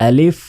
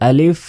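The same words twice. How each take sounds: Both takes have the same delivery.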